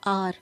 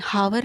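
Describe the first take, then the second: First: "आर" with silent h, starting on an open vowel; correct pronunciation. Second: "हावर" with the h sounded, as "haa-var"; wrong pronunciation. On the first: Teacher correcting students' pronunciation, h left silent. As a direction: say hour as "आर", no h at all. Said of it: "इसको आप सही pronounce करें". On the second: Teacher showing what not to say, h wrongly sounded. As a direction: mispronounce hour as "हावर", voicing the h. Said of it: "हावर नहीं". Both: Shown as a demonstration.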